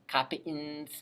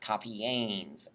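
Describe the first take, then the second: First: No vowel comes between the stem and -ns. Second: A long e comes before the final -ns. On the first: The speaker calls it wrong. "it just sounds really wimpy" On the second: The speaker calls it right. "We add in a connecting vowel"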